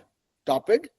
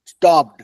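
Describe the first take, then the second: First: The ending is said as an extra syllable. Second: The word is said as one syllable. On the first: The speaker calls it wrong. "स्टॉपेड नहीं होगा" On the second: The speaker calls it right. "ED लग गया, स्टॉप्ड"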